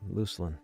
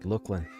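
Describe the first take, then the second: First: The first syllable sounds like the start of lucid. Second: The first syllable sounds like the word look. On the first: "which makes sense because lucidity" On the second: "Like look, not luck, or Luke, but look"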